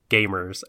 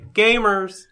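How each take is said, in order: First: The word is said plainly with flat energy. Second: The word is said loudly with excited energy. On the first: The speaker calls it wrong. "I didn't pronounce the title right" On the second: The speaker calls it right. "There's an exclamation point there, so you can't say Gamers. You have to say Gamers!"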